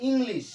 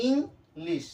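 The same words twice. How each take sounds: First: Said in the usual way. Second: ইংলিশ broken as "ing, lish" with a clear gap; split into syllables. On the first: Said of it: "ভেঙে ভেঙে উচ্চারণ". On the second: Shown as a demonstration. Teacher breaking a word down for students, split into syllables. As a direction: say ইংলিশ in two separate beats, ing and lish. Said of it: "ওয়ার্ডটাকে আমি ভেঙে ভেঙে".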